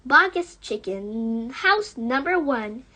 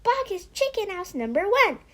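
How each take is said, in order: First: Cried out. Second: Higher, fast breathless blurt of Boggus chicken; fast high splutter. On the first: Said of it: "cried Mister Fox". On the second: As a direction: blurt the whole name at once. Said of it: "spluttered the small fox". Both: Acted.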